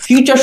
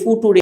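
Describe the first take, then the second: First: It is said fyoo-cher, with a ch sound. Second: It is said foo-too-ray, each letter sounded out. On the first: The speaker calls it right. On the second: The speaker calls it wrong.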